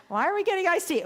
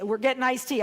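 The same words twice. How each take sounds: First: High, loud protesting WHY; exasperated question. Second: Raised, loud, firm statement; insistent answer. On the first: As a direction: re-enact an upset, baffled objection. Acted upset protest to companion. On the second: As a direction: re-enact shutting down an objection. Acted companion's insistent answer. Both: Retold or imitated.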